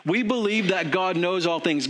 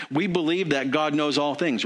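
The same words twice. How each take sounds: First: Higher and firmer, leaning on "We believe"; emphatic restatement. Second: Said in the usual way. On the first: Shown as a demonstration. Preacher restating the congregation's belief, emphatic and higher. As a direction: say it again like a creed you mean. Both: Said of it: "We do".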